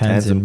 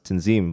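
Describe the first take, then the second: First: The name has an anglicized English-style pronunciation. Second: The name has its original native-style pronunciation. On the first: This is the easier way picked up at school. "I just pr- pronounce it Tanzim" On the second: This is how the name is meant to sound. "meant to be pronounced Tanzim"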